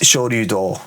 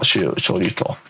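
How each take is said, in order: First: The last syllable starts with a voiced d. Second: The last syllable starts with a voiceless t. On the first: The speaker calls it right. "It's Shoryu-do, actually" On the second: The speaker calls it wrong. "not Shoryu-to"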